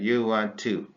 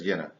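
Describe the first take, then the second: First: Each word is said separately and in full. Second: The words blend into one short contracted form.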